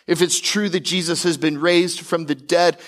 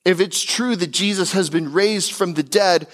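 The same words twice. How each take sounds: The two takes are said the same way.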